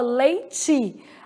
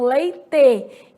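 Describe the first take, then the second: First: It is said in the speaker's own regional way. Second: It is said the way southern Brazilians say it. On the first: "aqui a gente fala leite" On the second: "aí no sul do país as pessoas falam leite"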